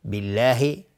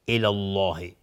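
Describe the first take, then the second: First: بالله with a light, thin L, recited louder. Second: الله with a thick, dark L; heavy L. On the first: Teacher contrasting kasra with fatha, thin L in بالله. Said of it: "یا قبلش کسره باشه". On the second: Teacher contrasting fatha with kasra, heavy L in الله. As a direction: fill out the L of الله. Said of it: "لفظ جلاله در اینجا تفخیم هست". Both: Shown as a demonstration.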